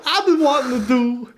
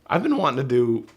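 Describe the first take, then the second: First: Mocking a cracked voice, very high and loud; laughing, exaggerated squeaky imitation; hammed-up high-pitched mimicry through laughter; John Travolta. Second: Voice cracking. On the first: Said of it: "you sound like John Travolta in the seventies". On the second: Real, not acted. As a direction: voice breaks upward mid-sentence. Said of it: "voice kinda cracked there".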